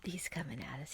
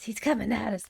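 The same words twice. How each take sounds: First: Whispering. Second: Said in the usual way. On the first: Real, not acted. Enemy approaching, tense.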